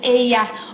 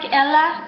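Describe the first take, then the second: First: The double L sounds like an English Y. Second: The double L sounds like an English L. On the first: The speaker calls it right. "se pronuncia como Y en inglés" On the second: The speaker calls it wrong. "looks like Ella, but no"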